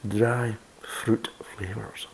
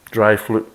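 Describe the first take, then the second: First: "Dry fruit flavours" slowly whispered, every sound spelled out; each sound placed slowly in a whisper, clear r in "fruit"; careful retake. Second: "fruit" slurred as "flut", l for r; tongue slips on the r, "fruit" comes out "flut". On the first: Shown as a demonstration. Reviewer retakes after blaming his teeth, slow careful whisper. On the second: Real, not acted. Beer reviewer stumbles over tasting notes, "fruit" said "flut". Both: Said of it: "I need to get new teeth".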